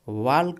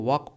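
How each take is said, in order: First: The L sound is pronounced in the word. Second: The L sound is silent in the word. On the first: The speaker calls it wrong. "इसको वाल्क नहीं पढ़ते हैं" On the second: The speaker calls it right. "ये आपका एल silent होता है"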